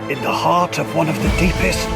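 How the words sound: It is said in a put-on documentary narrator voice.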